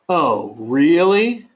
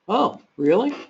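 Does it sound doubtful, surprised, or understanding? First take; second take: doubtful; surprised. First: It sounds skeptical and doubting. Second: It sounds surprised and eager. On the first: The listener does not believe what was said. "it can be one of doubt" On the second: The listener is amazed and wants to hear more. "I could be truly surprised and want to learn more"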